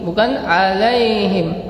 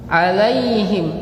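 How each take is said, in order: First: The i vowel is weakened and incomplete. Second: The i vowel is given its full value. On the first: The speaker calls it wrong. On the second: The speaker calls it right. "sempurnakan kasrahnya"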